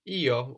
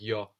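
First: It is said as two separate syllables, ee-oh. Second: It is said as one gliding syllable, yo. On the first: "when it stands alone" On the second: "a little more like yo, when you hear it in a sentence"

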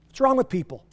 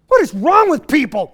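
First: The words 'what is' are contracted to 'what's'. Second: The words 'what is' are said in full.

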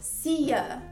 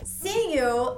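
First: The second word is reduced to 'ya'. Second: The second word is said as a full 'you'.

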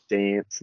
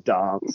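First: It is said in a Queensland accent. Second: It is said in a South Australian accent.

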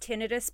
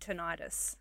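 First: The ending is said like 'ih-tus'. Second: The ending is said like 'eye-tis'. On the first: The speaker calls it right. "I know that it's tinnitus" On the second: The speaker calls it wrong. "it isn't called tinnitus. Because everything seems to be an itis"

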